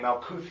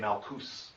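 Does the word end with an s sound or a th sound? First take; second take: th sound; s sound. First: The word ends with a th sound. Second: The word ends with an s sound. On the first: This is an old outsider's version of the word. The speaker calls it wrong. "there's no T H sound in Hebrew" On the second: The speaker calls it right.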